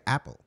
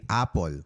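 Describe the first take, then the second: First: Apple as short AP-ul, second vowel swallowed; apple the American way, AP-ul, quick reduced ending; American pronunciation. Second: Apple read as AH-pol, full clear o; apple the way Filipinos read it, AH-pol; Filipino pronunciation. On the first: Host contrasting the American sound for listeners, AP-ul. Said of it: "Pero sa Amerika". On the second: Host explaining how Filipinos learned English by reading, AH-pol. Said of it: "So, let's say". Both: Shown as a demonstration.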